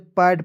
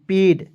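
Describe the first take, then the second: First: The vowel is an open 'ae' sound. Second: The vowel is a closer 'e' sound. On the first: The speaker calls it wrong. "बहुत लोग इसे पैड पढ़ लेता है, जो कि क्या है, गलत तरीका है" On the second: The speaker calls it right. "ए आई का उच्चारण ... एकले के रूप में करेंगे"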